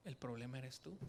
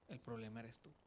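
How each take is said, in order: First: Lowered, soft and loving; tender. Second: Even softer, lower, almost hushed; tender. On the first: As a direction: gently tell him the truth. (con ternura, en voz más baja y suave) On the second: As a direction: say it with loving pain. (casi susurrado, con amor y dolor) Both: Retold or imitated. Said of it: "con mucho amor Dios me dijo".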